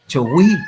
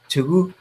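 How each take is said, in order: First: The final vowel sounds like an 'ee'. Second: The final vowel sounds like an 'oo'. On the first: The speaker calls it wrong. "el chileno lo pronuncia chogüí, y suena tan feo" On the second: The speaker calls it right. "pero es U"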